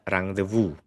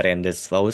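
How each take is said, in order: First: "rendezvous" said the French way, slowly and carefully; correct rendezvous. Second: "rendezvous" read as spelt, the wrong way. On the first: Teacher models the right French reading for students, slow and careful. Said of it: "Ini bacanya adalah rendezvous". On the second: Teacher shows students the wrong reading, spelling-pronounced rendezvous. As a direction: misread "rendezvous" letter by letter. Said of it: "itu salah". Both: Shown as a demonstration.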